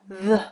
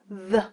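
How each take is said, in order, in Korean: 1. th 소리는 무성음이에요. 공기만 내뿜어요. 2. th 소리는 유성음이에요. 성대가 울려요. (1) "딱 그 상태로 바람만 내뿜으면 무성음의 th가 되긴 해요" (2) "이게 유성음의 th입니다"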